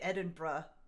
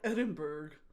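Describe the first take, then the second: First: It is said with a British pronunciation. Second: It is said with an American pronunciation. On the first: "They also say Edinburgh" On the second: "but we're like Edinburgh"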